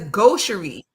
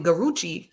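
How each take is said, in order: First: The word is said with a 'sh' sound inside. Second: The word is said with an 'r' sound inside. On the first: The speaker calls it right. "It says gaucherie" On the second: The speaker calls it wrong. "I called it Garucci"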